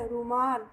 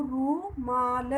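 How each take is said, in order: First: Said in the usual way. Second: रूमाल stretched very slowly; teacher stretching a word for pupils; slow modelled word. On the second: Shown as a demonstration. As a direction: draw out रूमाल, lingering on the long रू. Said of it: "र को बड़ा ऊ".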